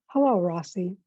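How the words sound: The greeting sounds flat and neutral. "in a neutral tone, like I would say"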